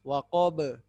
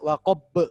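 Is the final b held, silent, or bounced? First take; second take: bounced; held. First: The final b is released with a bounce. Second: The final b is held without release. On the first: The speaker calls it right. "Pantulkan saja" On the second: The speaker calls it wrong. "ba ini tidak ditahan"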